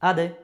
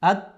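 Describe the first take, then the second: First: The final d is released with a jolting bounce. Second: The final d stops without any bouncing release. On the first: The speaker calls it right. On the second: The speaker calls it wrong.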